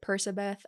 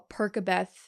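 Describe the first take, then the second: First: The middle consonant is an S sound. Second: The middle consonant is a K sound. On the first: The speaker calls it wrong. "some people pronounce it Persabeth" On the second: The speaker calls it right. "a C A makes a K sound"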